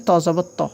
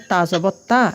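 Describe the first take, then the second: First: "ত জবর ত" with a full, rounded to; heavy thick to. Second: "তা জবর তা" with a light, thin ta; soft thin ta. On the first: Teacher showing Arabic heavy letter, "ত" as thick to. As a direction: make "ত" thick and rounded, not thin. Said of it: "ত এটা একটা মোস্তালিয়া বা মোটা হরফ". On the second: Teacher showing Arabic soft letter, "তা" as thin ta. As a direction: keep "তা" soft and open, not rounded. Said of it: "তা যেটা আছে এটা নরম বা বারিক হরফ". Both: Shown as a demonstration.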